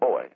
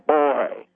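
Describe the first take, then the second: First: The word is said plainly, without force. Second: The word bursts out loud and explosive. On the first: "that just sounds like boy" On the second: "That comes out loud. It comes out like a percussive explosion"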